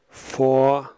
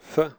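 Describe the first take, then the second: First: The word has a full, clear vowel. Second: The vowel is reduced to a weak schwa. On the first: "First the strong form" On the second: "then the weak form"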